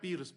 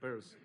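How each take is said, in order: First: The name is said like the word 'pierce'. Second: The name is said like the word 'purse'. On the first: The speaker calls it wrong. "porque yo decía Pierce" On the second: The speaker calls it right. "como si fuera peras"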